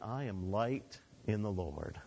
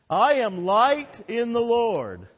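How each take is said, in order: First: It is said calmly with little emphasis. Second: It is said excitedly with strong emphasis.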